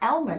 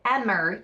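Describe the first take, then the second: First: The name is said with an L sound. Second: The name is said without an L sound. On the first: The speaker calls it wrong. "It's not Elmer" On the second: The speaker calls it right. "There's no L in it"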